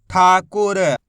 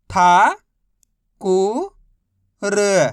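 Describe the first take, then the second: First: ठाकुर joined, loud on ठा; blended word. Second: था, कु, र apart, था loud and long; syllable by syllable. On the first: Teacher modelling reading, ठाकुर said whole. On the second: Teacher modelling reading, था, कु, र sounded out separately. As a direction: sound out था... कु... र with pauses. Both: Shown as a demonstration. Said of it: "बस इसी तरीके से".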